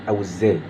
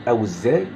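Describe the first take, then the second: No difference in how they are said.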